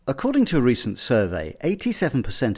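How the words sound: Short pauses let the phrases flow together. The speaker calls it right. "delivering the lines with tighter gaps"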